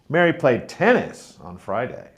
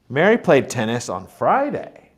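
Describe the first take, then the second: First: The word tennis is stressed. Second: The word Friday is stressed. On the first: It was this sport and not another. "Mary played tennis on Friday, not football" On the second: It was this day and not the usual one. "Mary played tennis on Friday, not Saturday, like usual"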